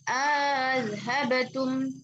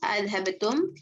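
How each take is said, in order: First: A long vowel is inserted, and the second hamza is softened. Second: No long vowel is inserted, and both hamzas are clear. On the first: "wajah pertamanya" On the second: "Ibnu Zakwan dengan dua tahqiq hamzahnya"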